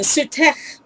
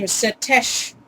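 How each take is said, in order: First: Sutech ending in a guttural scrape; hawked-up kh. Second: Setesh ending in a smooth sh. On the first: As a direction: hawk the final ch of Sutech from the throat. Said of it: "hawk something up as they were speaking". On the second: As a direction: soften the last sound of Setesh to sh. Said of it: "turned into an S H". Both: Shown as a demonstration.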